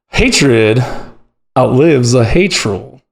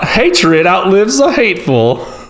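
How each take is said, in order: First: It sounds like a gruff male prospector. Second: It sounds like a sweet Southern belle.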